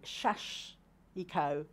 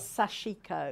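First: The word begins with a sh sound. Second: The word begins with an s sound. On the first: "if you have a spelling and it's got an H at the beginning, that will be shashiko" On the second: "the way that I know is sashiko"

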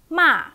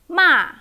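First: The pitch falls sharply from high. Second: The pitch falls sharply from high.

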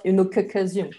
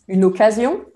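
First: The k sound is pronounced twice, doubled. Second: The k sound is pronounced once, short. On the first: The speaker calls it wrong. "and not" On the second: The speaker calls it right. "you have to pronounce it as if there were only one C"

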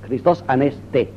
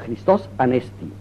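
First: The second syllable of Anesti has an 'e' sound. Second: The second syllable of Anesti has an 'i' sound. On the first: This is how a classical Greek would say it. "diría un griego clásico" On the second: This is how modern Greeks say it. "es el itacismo griego"

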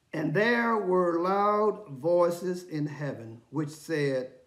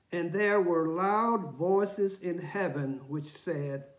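Both takes have the same delivery.

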